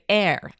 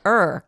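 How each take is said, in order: First: The word sounds like 'air', rhyming with 'hair'. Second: The word sounds like 'er', rhyming with 'her'. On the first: The speaker calls it wrong. "Americans say air, and it drives me nuts" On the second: The speaker calls it right. "you just said er correctly"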